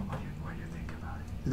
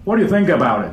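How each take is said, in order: First: Barely audible whisper; tiny, unprojected voice; too quiet to hear. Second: Firm, full-voiced English question; big clear voice, falling at the end; projected so all hear. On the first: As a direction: whisper the English question timidly. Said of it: "全く後ろの人聞こえないと思いますよ". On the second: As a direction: project it to the back of the room. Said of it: "って言わないと". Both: Shown as a demonstration.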